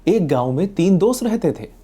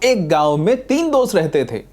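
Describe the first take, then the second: First: It is said plainly and simply. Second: It is said with exaggerated surprise. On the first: The speaker calls it right. "Simple" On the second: The speaker calls it wrong. "इसमें कोई बहुत चौंकाने वाली बात नहीं है"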